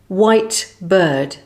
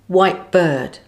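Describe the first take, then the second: First: The final T is fully pronounced. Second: The final T is dropped with a glottal stop.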